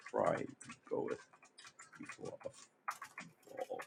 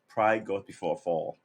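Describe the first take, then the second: First: Very soft, broken up with pauses; under the breath. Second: Said in the usual way. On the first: Real, not acted. Repeats saying slowly under breath.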